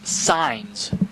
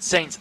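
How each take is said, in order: First: The name is said with an 'eye' vowel. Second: The name is said with an 'ay' vowel. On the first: The speaker calls it right. "is the correct pronunciation" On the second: The speaker calls it wrong. "I said"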